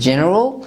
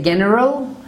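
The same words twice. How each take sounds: First: The G is a soft sound, like in jam. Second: The G is a hard sound, like in go. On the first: The speaker calls it right. "It is used before letter E. It is general" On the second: The speaker calls it wrong. "We do not say general"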